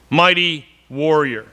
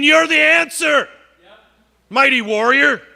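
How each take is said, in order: First: Said in the usual way. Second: Higher, ringing call of God. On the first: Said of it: "You gotta believe the Lord is with you". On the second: Acted. Preacher voicing God calling Gideon mighty warrior. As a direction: lift it up like God naming him. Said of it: "And God says to Gideon".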